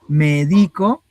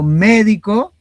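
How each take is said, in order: First: The stress is on the middle syllable. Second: The stress is on the first syllable. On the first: I give medicine to someone. "Medico es de que yo hago la acción de medicar" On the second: A professional who practises medicine. "ese es el profesional que se encarga de la medicina"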